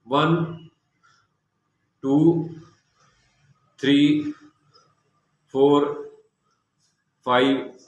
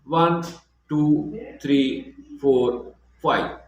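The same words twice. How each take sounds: First: The numbers are counted separately, with breaths between. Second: All five numbers are said in one breath.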